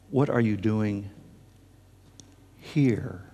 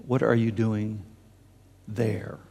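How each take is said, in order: First: "here?" set apart after a long pause; pause, then land "here?" on its own; stress on here. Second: "there?" set apart after a pause; pause, then drop "there?" on its own; stress on there. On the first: Preacher repeats God's question to Elijah, stress on "here?". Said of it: "We're talking here". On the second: Preacher gives what God did not ask, stress on "there?". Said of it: "Do you notice what the voice did not say?". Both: Shown as a demonstration.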